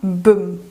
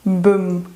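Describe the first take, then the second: No difference in how they are said.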